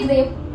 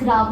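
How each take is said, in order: First: The vowel sounds like 'ay' in 'grave'. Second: The vowel sounds like 'ah' in 'father'. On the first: The speaker calls it wrong. "इसको आप पढ़ोगे ग्रेव" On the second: The speaker calls it right. "It's ग्राव not ग्रेव"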